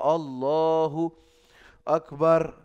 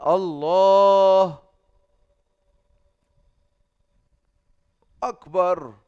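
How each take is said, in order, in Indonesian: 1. Hanya ada jeda napas yang singkat di antara kedua kata. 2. Ada jeda diam yang panjang di antara dua kata itu. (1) "ambil napas doang" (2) "Antara ini kenapa diam ente?"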